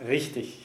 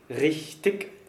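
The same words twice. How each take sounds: First: The ending is said with a soft ch sound. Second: The ending is said with a hard k sound. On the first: The speaker calls it right. "es heißt richtig. Suffixendungen mit IG werden immer ICH ausgesprochen" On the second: The speaker calls it wrong. "wird die IG-Endung immer mit einem Verschlusslaut gebildet"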